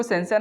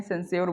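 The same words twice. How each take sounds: First: सेंसर ending in plain "-sar"; rejected pronunciation. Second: सेंस्योर ending in "-syor"; taught pronunciation. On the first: Teacher warning against a misreading, सेंसर as "sen-sar". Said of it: "सेंसर नहीं पढ़ते हैं". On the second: Teacher correcting the reading for students, सेंस्योर as "sens-yor". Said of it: "सेंस्योर बोलते हैं". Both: Shown as a demonstration.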